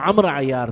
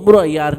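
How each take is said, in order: First: The name begins with an 'a' vowel. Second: The name begins with a 'u' vowel. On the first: The speaker calls it right. "वो अम्र अय्यार था" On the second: The speaker calls it wrong. "हमारे यहाँ जाहिल उसको उम्र पढ़ते हैं"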